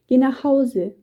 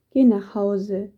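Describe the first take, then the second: First: Higher, louder narrated order; insistent call. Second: Slow, gently sad send-off; understated sadness. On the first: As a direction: call it out to send him off firmly. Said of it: "ruft Petrus und gibt Elias einen kräftigen Stoß". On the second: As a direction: send him home slowly, with a touch of sorrow. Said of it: "sagt Petrus traurig". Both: A narrator's reading.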